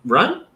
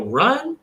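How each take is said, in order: First: "run?" rising high, unsure; hesitant question; questioning rise. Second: "Run" pitched much higher, question tune; doubtful rising call; rising upward inflection. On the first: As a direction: ask it doubtfully. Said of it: "Or do we run?". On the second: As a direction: make it a hesitant question. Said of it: "if I go". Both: Shown as a demonstration.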